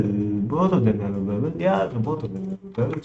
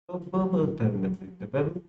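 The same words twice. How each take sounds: First: Odd put-on voice. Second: Said in the usual way. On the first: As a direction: toy with the words in a playful voice. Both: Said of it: "I don't know why I'm speaking like this".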